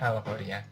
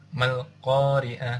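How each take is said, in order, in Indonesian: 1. Kata ini dimulai dengan vokal a. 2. Vokal a dihilangkan setelah ma. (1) "alif lamnya ini ada di depan" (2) "ketika ada di tengah maka alifnya ini nggak dibaca"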